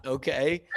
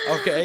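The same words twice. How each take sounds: First: Said in the usual way. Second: Okay? jumped much higher with a falling end; emphatic high okay. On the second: Real, not acted. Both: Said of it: "repeated okay".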